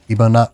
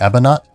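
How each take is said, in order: First: The first part is not said like 'ebony'. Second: The first part is said like 'ebony'. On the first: It is the more intuitive everyday way. "when I don't" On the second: It follows the word it likely comes from. "somewhat like uh, ebony. So I, I tend to say Ebonut sometimes when I think about it"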